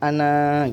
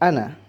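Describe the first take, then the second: First: The final vowel is drawn out long. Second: The final vowel is said short. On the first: The reading stops after this word. "Jika wakof dibaca panjang" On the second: The reading continues on without stopping. "jika wasol atau lanjut nun dibaca pendek"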